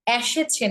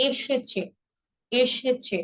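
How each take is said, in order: First: এসেছে with a retroflex sh; এসেছে said carelessly; wrong pronunciation. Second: এসেছে with a clean s and chh; এসেছে, e-she-chhe; correct pronunciation. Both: Shown as a demonstration. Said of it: "এসেছে না".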